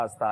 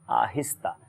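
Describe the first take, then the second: First: The middle 'hi' syllable is dropped. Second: The middle 'hi' syllable is clearly pronounced. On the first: The speaker calls it wrong. "Memon जो है ना इसमें बहुत ज़्यादा गलती करते हैं" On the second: The speaker calls it right. "जी आहिस्ता दुरुस्त है"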